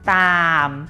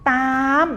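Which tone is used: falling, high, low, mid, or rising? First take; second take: low; high. First: The word is said on a low tone. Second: The word is said on a high tone. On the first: "ตามเป็นเสียงเอก" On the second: "ตามเป็นเสียงตรี"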